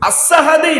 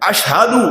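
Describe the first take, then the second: First: The first consonant is a plain 's' sound. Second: The first consonant is an 'sh' sound. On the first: The speaker calls it wrong. "அஸ்ஹது இல்லை" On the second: The speaker calls it right. "அஷ்ஹது என்பதுதான் சரியான"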